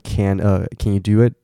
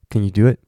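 First: Every word is said in full. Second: The words are reduced and run together.

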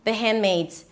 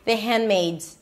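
First: The D sound is dropped and the phrase is quick. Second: The same.

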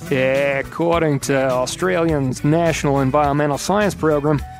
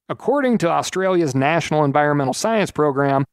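First: It is spoken in a put-on Australian accent. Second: It is spoken in the speaker's usual accent.

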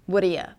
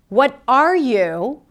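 First: The words blend into one short reduced form. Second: Each word is pronounced fully and clearly.

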